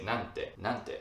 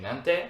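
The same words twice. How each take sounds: First: Said in the usual way. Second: Nante shot out loud and rising. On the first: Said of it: "you would say". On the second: Shown as a demonstration. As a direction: blurt Nante hard and high. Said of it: "Instead of saying".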